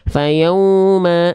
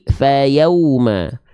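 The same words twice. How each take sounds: First: The voice goes through the nose, sounding nasal. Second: The voice stays out of the nose, sounding clear. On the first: The speaker calls it wrong. "suaranya malah masuk ke dalam rongga hidung" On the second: The speaker calls it right. "enggak, tapi fayauma"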